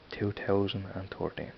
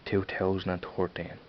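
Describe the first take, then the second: No difference in how they are said.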